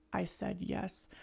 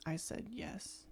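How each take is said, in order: First: Soft quote. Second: Sheepish, barely voiced whisper. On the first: Retold or imitated. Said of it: "I loved the way he sang". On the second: Imitating the singer's line, a sheepish whisper. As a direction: whisper it like you're not proud of it. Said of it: "sheepishly, he's like".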